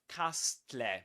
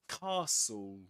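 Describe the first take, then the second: First: The T sound in the middle is pronounced. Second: The T sound in the middle is silent. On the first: The speaker calls it wrong. "We don't say castle" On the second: The speaker calls it right. "We say ca castle, castle"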